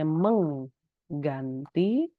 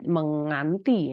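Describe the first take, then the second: First: A hard g follows the ng sound. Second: The ng runs straight into the vowel. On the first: The speaker calls it right. "meng ng lalu g lagi" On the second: The speaker calls it wrong. "bukan hanya yang ng saja lalu uh, a ... jadi salah"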